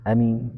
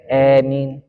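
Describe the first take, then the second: First: The first vowel is short. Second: The first vowel leans toward an e sound. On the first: "Dibaca pendek ya" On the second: "Hamzanya dimiringkan. ... maka bacanya e"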